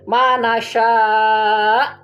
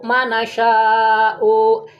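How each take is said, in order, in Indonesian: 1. Berakhir mendadak, tanpa vokal 'u' di akhir. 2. Berakhir dengan tambahan vokal 'u' di akhir. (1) "di wakaf jadi mana sya' harusnya begitu" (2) "dibaca u"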